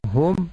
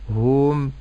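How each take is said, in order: First: The vowel after the h is kept short. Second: The vowel after the h is lengthened. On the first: The speaker calls it right. "لكن أقول هم يوقنون" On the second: The speaker calls it wrong. "ولا أمد في الهاء فأقول هم"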